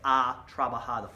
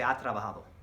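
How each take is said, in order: First: The phrase is said slowly and deliberately. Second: The phrase is said quickly and smoothly. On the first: The speaker calls it wrong. "They don't say ha trabajado" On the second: The speaker calls it right. "they don't say it slow. They say ha trabajado"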